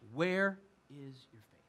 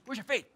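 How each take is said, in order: First: It is asked as a sincere, open question. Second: It is said as a scolding slap-down.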